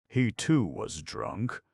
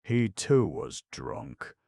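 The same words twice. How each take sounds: First: Slow, rising on too; surprised question. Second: Said in the usual way. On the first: Acted. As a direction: ask it in surprise. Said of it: "repeated as question". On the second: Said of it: "repeated as statement then question".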